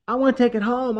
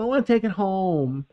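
First: Put-on high, pleading child voice; little girl voice. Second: Put-on high pleading child, a bit less high; little girl voice, repeated. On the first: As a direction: beg like an excited little kid. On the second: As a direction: beg again like a little kid. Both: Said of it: "or she'll be like".

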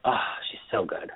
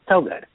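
First: Breathy whisper of admiration; whispered gush. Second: Emphatic gush. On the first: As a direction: whisper it like a secret thrill. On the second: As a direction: punch it out with delight. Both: Real, not acted. Gushing over the actress.

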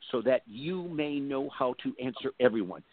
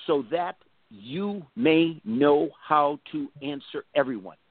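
First: Said in the usual way. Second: Slow, drawn-out reading of the verse; said slowly. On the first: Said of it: "listen to this". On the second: Shown as a demonstration. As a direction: stretch out so that you may know. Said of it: "I'll say it slowly".

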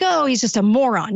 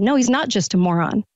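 First: Dismissive imitation of the public, brushing it off; mock shrug-off. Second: Said in the usual way. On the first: Host imitating the public's dismissive shrug about the president. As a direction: lightly mimic people waving it away. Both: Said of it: "It's like".

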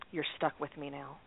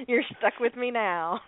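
First: Low, quiet deadpan; deadpan serious. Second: Slow, drawn-out playful echo; playful mock echo. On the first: Retold or imitated. Partner greets her in the car after the ruling, very serious. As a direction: say it soft and grave, imitating a partner. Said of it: "with this very serious look on her face". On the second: Repeating partner's line to laughing co-hosts, playfully drawn out. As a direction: stretch it out teasingly between laughs.

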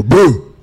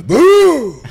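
First: A loud playful boo, like a giant scaring people; mock boo. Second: Much higher, loud hammed-up boo; mock boo. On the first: Retelling Andre scaring people in the dressing room, loud mock boo. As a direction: jump out and yell boo. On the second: Andre jumping up in the crowd to scare fans, shrill loud mock boo. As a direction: leap out with a big high-pitched boo. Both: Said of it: "he'd jump up and go".

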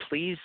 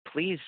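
Both takes have the same delivery.

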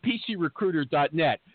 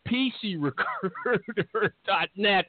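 First: Said in the usual way. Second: Slow announcer flourish, stretching "recruiter"; drawn-out web address. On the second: Acted. Host repeating sponsor's web address, drawn-out flourish. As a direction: linger playfully on "recruiter", rolling it out.

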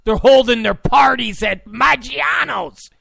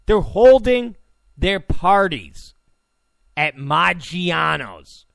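First: Loud, high, outraged; louder mocking outrage. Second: Each chunk spaced out and slowed; slow, deliberate repeat. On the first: Real, not acted. Ranting to listeners about the party venue, mock outrage. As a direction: shout the venue like it's absurd. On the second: Shown as a demonstration. Repeating the venue to his listeners, slow emphatic spacing. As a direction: lay it out word by word for emphasis. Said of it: "I'm gonna repeat that again".

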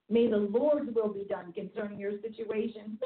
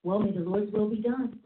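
First: A touch of solemn prayer voice; lightly intoned prayer; prayerful. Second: Said in the usual way. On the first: Shown as a demonstration. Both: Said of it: "that's the scariest prayer ever".

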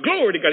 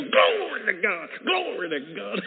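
First: High, loud burst of praise; quick, high, loud exclamation of worship; retold praise shout. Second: High, drawn-out shout of praise; imitating a long, ringing cry of worship; angel's praise cry. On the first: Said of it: "And I'm shouting". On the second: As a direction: stretch out the praise, loud and high. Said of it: "He go".

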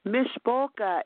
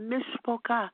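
First: Said in the usual way. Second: Higher-pitched, mock-tearful cry; put-on tearful plea; imitated fake crying. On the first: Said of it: "Mishpoka in Hebrew means family". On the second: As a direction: mimic someone pretending to weep. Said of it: "she was pretending like she was crying".

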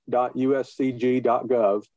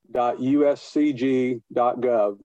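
Both takes have the same delivery.

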